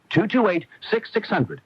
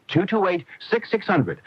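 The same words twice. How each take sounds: The two takes are said the same way.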